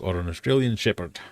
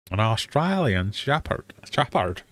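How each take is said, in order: First: Said in the usual way. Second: Slow, overdone fake Australian accent with broad vowels; badly faked Australian, "Shepherd" bent towards "shappard"; attempted Australian accent. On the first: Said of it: "that's not how that word sounds". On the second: Quiz host fumbling a dog breed, bad Australian accent. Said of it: "That was my fabulous Australian".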